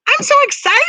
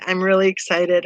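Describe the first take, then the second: First: It is said with lively, gushing excitement. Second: It is read in a plain, flat tone.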